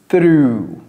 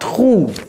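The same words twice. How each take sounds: First: It is said with English 'th' and 'r' sounds. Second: It is said with French-style consonant sounds. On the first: The speaker calls it right. "Donc ça c'est through" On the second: The speaker calls it wrong. "C'est pas through"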